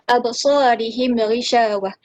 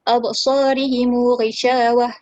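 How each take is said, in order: First: The m is closed, with no vowel after it. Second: The m is followed by a lengthened u vowel.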